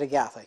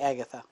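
First: The name has a non-English pronunciation. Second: The name has an English pronunciation. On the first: This is how the family said the name. "But we said Agatha" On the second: This is how outsiders would say the name. "if you anglicized it, it would be Agatha"

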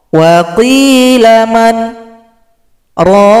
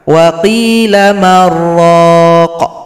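First: There is a short pause after man. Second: Man and raq run together without pause.

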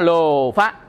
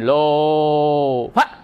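First: The word is said smoothly without exaggeration. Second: The word is said with exaggerated, forceful lengthening. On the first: The speaker calls it right. "Ta nói lô phá" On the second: The speaker calls it wrong. "chứ không phải mình lô phá"

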